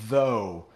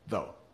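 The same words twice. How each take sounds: First: The word is pronounced fully and carefully. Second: The word is pronounced in a relaxed, reduced way. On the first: The speaker calls it wrong. "it's not really like though" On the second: The speaker calls it right. "we get lazy with our"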